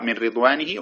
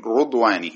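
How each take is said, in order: First: "رضوانه" said ridwanihi, with i; with kasra. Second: "رضوانه" said rudwanihi, with u; with damma. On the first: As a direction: open "رضوانه" on a short i. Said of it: "بالضم والكسر". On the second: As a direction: open "رضوانه" on a rounded u. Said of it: "هكذا بالضم". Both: Shown as a demonstration.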